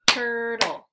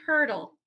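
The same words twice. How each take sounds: First: "Turtle" drawn out in two loud beats; syllable by syllable. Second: Said in the usual way. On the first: Shown as a demonstration. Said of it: "clap the syllables out". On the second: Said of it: "I'll say the word".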